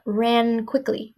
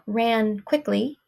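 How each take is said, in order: First: The two words run together without a break. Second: The two words are said separately, not joined. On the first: The speaker calls it right. "the sound continues" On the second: The speaker calls it wrong. "Not ran quickly"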